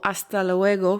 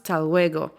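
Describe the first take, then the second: First: The phrase is said in full, every syllable. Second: The phrase is shortened, its first syllable dropped.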